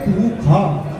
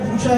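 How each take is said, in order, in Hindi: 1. बीच का व्यंजन kh जैसा सुनाई देता है। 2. बीच का व्यंजन sh जैसा सुनाई देता है। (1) "लेकिन वैदिक उच्चारण क्या है? पूखा" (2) "जब हम पढ़ लेते हैं पूछा लिखा"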